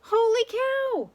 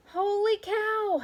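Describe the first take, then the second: First: Very high, loud, slow holler; even bigger holler. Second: High, slow drawn-out holler. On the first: Manny the cook hollers his thought, very loud and high. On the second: Manny the cook hollers in surprise, drawn out. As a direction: holler it out long. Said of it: "hollered Manny the cook". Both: A narrator's reading.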